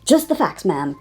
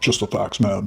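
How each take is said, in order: First: It is said in a normal voice. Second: It is said in a deep voice.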